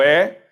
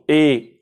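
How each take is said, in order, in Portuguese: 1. A vogal é aberta, como é. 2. A vogal é fechada, como ê. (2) "E fechado"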